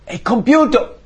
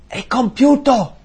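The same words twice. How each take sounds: First: Much higher and louder; triumphant cry. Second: Much higher and louder, slow; triumphant cry. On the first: Preacher voicing Jesus declaring the debt paid, loud and high. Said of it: "ha detto". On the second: Preacher voicing Jesus' last cry on the cross, triumphant and loud. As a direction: proclaim it like a victory shout. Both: Retold or imitated.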